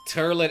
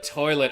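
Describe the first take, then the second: First: The first vowel is an er sound. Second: The first vowel is an oi sound. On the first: This is how some Louisiana speakers say it. "instead of the oi sound, they would make an er sound" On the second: This is the usual way to say it. "the oi sound"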